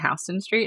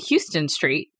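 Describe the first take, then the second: First: The first syllable sounds like 'how'. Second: The first syllable sounds like 'hue'. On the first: "the first time I encountered the H-O-U-S sound, that's the way that your name is pronounced, was when I was in New York" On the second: "The rest of the country pronounces it one way"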